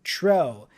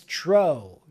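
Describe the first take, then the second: First: The vowel is an open oh sound. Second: The same.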